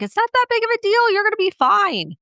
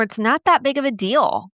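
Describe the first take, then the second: First: Much higher, fast brushing-off voice; dismissive parent. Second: Said in the usual way. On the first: Retold or imitated. Parent minimizing a child's fear, high fast mock voice. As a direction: rattle it off pitched up, waving it away. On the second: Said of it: "I've been guilty of saying that".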